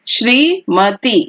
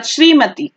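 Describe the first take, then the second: First: Shrimati stretched slowly, syllable by syllable; slow careful spelling. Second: Said in the usual way. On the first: Shown as a demonstration. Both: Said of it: "उसके बाद श्रीमती".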